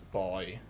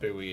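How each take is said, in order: First: The u is silent, like the word boy. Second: The u sound is pronounced in the word. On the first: The speaker calls it right. "it's boy. The U is silent" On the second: The speaker calls it wrong. "I don't know why Americans say it as buoys. It's not buoy"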